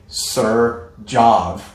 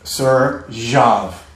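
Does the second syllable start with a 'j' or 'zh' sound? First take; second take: j; zh. First: The second syllable starts with a hard j sound. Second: The second syllable starts with a soft zh sound. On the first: The speaker calls it wrong. "this is what you're saying. You're saying, sir, jav, jav, jav, like J" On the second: The speaker calls it right. "It's more like a zh"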